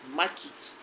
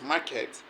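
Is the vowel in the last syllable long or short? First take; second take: short; long. First: The last syllable has a short e vowel. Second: The last syllable has a long vowel. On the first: The speaker calls it right. "but actually it has a short e sound" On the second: The speaker calls it wrong. "people pronounce it as market"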